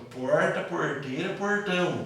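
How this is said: The R is strongly curled, as in Goiânia. "o R ele é bem puxado"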